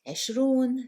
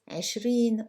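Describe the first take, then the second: First: The word ends with an 'oon' sound. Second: The word ends with an 'een' sound. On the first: "Just a little note here that" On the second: "are usually pronounced in colloquials um, as"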